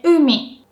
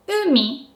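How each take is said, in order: First: Umi with a loud, high U falling to mi; exaggerated pitch accent. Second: Umi with a high u, dropping on mi; lightly falling umi from a high u; high-low pitch accent. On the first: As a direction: punch the high U in Umi, then drop. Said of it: "if I have to exaggerate it". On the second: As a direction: say umi, high then low, without much stress. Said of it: "u is pronounced with a high pitch". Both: Shown as a demonstration.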